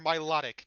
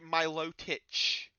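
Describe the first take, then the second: First: The word ends with a k sound. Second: The word ends with a ch sound. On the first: The speaker calls it right. "It's Milotic or Milotic. Not there's no ch here" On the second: The speaker calls it wrong. "he pronounces it Milotich"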